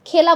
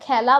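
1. প্রথম স্বরধ্বনিটি বদ্ধ 'e' ধ্বনি। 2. প্রথম স্বরধ্বনিটি উন্মুক্ত 'ae' ধ্বনি। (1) "খেলা বলি না" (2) "খেলা বলি। ... বিবৃত উচ্চারণ হয়"

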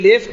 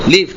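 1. স্বরধ্বনিটি 'e'-এর মতো উচ্চারিত হয়। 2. স্বরধ্বনিটি 'i'-এর মতো উচ্চারিত হয়। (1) "আমি যদি বলি লেফট, ... হুজুর এটা ভুল বলে" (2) "লিফট না?"

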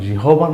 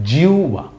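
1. শব্দের মাঝখানে h ধ্বনি আছে। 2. শব্দের মাঝখানে u ধ্বনি আছে। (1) "কিন্তু উচ্চারণ জিহবা না" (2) "কিন্তু উচ্চারণ হবে জিউবা"

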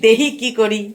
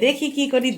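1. এটি বাঙাল উপভাষায় বলা হয়েছে, 'h' উচ্চারণ সহ। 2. এটি প্রমিত বাংলায় বলা হয়েছে, 'kh' উচ্চারণ সহ।

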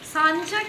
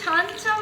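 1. শব্দটি 's' ধ্বনি দিয়ে শুরু হয়। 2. শব্দটি 'ch' ধ্বনি দিয়ে শুরু হয়। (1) "কিরকম তোমাদের উল্টো মানে হুগলির উচ্চারণ সব উল্টো পাল্টা।" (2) "ছানচা বলে ছ ছ"

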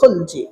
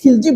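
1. প্রথম স্বরধ্বনিটি 'a' এর মতো শোনায়। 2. প্রথম স্বরধ্বনিটি 'i' এর মতো শোনায়। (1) "মূলত শুদ্ধ উচ্চারণ হলো খলজি" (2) "আমরা বখতিয়ার খিলজিকে খিলজি বলি"

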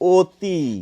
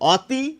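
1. প্রথম স্বরধ্বনিটি 'o' এর মতো শোনায়। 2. প্রথম স্বরধ্বনিটি 'a' এর মতো শোনায়। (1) "আমরা কিন্তু মুখে বলি অতি" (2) "আমরা কি কেউ বলি অতি?"

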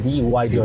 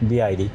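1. মাঝের অক্ষরটি 'why' এর মতো শোনায়। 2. মাঝের অক্ষরটি 'eye' এর মতো শোনায়। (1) "বাংলাদেশে বিওয়াইডি বলে" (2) "চাইনিজ উচ্চারণ হচ্ছে বিআইডি"

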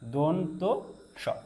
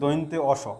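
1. প্রথম অক্ষরে সাধারণ o স্বরধ্বনি আছে। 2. প্রথম অক্ষরে oi যৌগিক স্বরধ্বনি আছে। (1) "এটা সঠিক উচ্চারণ হচ্ছে দন্ত স" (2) "কিন্তু এটাকে দৈন্তে অস বলা যাবে না"

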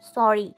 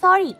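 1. শব্দটি একটু জোরে বলা হয়। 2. শব্দটি খুব জোরে চিৎকার করে বলা হয়। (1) "একটু জোরে বললাম" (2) "জোরে বলল"

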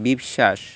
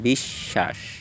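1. 'sh' ধ্বনিটি ছোট। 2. 'sh' ধ্বনিটি দ্বিত্ব। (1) "আমরা কি বলি বিশ্বাস না" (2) "আমরা বলি বিশ্বাস"

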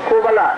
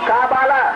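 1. প্রথম স্বরধ্বনিটি 'o' এর মতো শোনায়। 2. প্রথম স্বরধ্বনিটি 'a' এর মতো শোনায়। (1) "এটা অপভ্রংশ হয়ে গেছে" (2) "আসলে তো কোবালাও নয় কাবালা"

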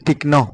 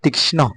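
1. এটি বাংলা উচ্চারণে বলা হয়েছে। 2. এটি সংস্কৃত উচ্চারণে বলা হয়েছে। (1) "আমরা এগুলোকে বাংলা ভাষায় পড়ি তীক্ষ্ণ" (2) "কিন্তু সংস্কৃত হবে তীক্ষ্ণ"

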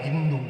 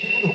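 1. শব্দটি 'h' ধ্বনি দিয়ে শুরু হয়। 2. শব্দটি 's' ধ্বনি দিয়ে শুরু হয়। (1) "শকে হ বলিত" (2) "ওইটাকে সিন্ধু বলতে পারত না"

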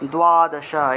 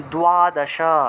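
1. প্রথম ব্যঞ্জনের পরে একটি w-গ্লাইড আছে। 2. প্রথম ব্যঞ্জনের পরে একটি w-গ্লাইড আছে।

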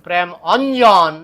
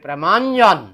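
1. দুটি শব্দ আলাদাভাবে বলা হয়, স্বরধ্বনি থাকে। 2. দুটি শব্দ মিলে একটি শব্দ হয়ে যায়। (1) "চলবে না" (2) "এখানে অটাকে অদৃশ্য করতে হবে, বলতে হবে প্রেমাঞ্জন"

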